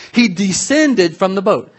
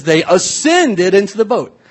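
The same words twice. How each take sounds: First: "descended" slow and punched higher; stress on descended. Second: "ascended" slow and punched higher; stress on ascended. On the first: Preacher contrasting with climbing up, "descended" slowly stressed. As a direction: lean slowly on the word "descended". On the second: Preacher quoting the Greek, "ascended" slowly stressed. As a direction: lean slowly on the word "ascended". Contrasts up with down. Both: Shown as a demonstration.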